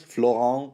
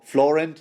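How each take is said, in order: First: Florent with silent t, nasal ending; French pronunciation. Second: Florent with the final t sounded; English pronunciation. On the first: Host arguing the name is French, French pronunciation. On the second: Host testing a surname, English pronunciation. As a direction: say Florent the English way, hard T ending. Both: Shown as a demonstration. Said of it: "why wouldn't it be French?".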